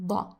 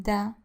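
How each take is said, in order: First: DA said thick and heavy, emphatic d; heavy Arabic da. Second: DA with a light, thin d. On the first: Teacher showing learners the Arabic letter, heavy DA. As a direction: make DA as thick and heavy as possible. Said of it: "Heavy, heavy da". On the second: Teacher showing the wrong letter, light thin DA. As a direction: say DA lightly, without any heaviness. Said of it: "da, not da". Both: Shown as a demonstration.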